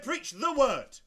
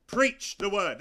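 First: "preach", then slow, weighty "the word"; stress on THE WORD. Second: "Preach" punched out as the key word; stress on PREACH. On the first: Preacher rejecting Calvin's words, stress on "the word". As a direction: lean slowly on "the word" as the key phrase. Contrasts the word with men's writings. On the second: Preacher rejecting lecture-style church, stress on "Preach". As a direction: hit "Preach" hard, then "the word". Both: Real, not acted.

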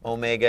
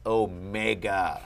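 First: Said in the usual way. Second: Omega broken up as o-MEGA, MEGA stressed; emphatic word breakdown. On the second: Shown as a demonstration. Teacher explaining the big O, emphatic o-MEGA. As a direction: punch the MEGA in omega to show it means big. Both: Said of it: "It's a big O".

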